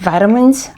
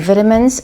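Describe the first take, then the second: First: It is said in an American accent. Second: It is said in a British accent.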